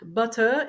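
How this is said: It is said with a British accent. "English, British"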